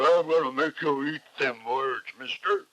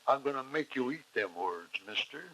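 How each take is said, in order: First: It is said in an exaggerated, overdramatic way. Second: It is said in an even, understated way. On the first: The actor overacts and gets too dramatic. The speaker calls it wrong. "They don't say" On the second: The actor plays it convincingly without overacting. The speaker calls it right. "They just say it in a in a convincing manner"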